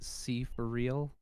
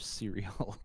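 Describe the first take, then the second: First: The name is said as three separate words. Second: The name is blended into a single word. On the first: "pronounce it C for real" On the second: "or cereal"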